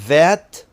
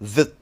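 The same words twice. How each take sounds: First: The word is said in its full form. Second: The word is said in a reduced form. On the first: "That becomes" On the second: "becomes that"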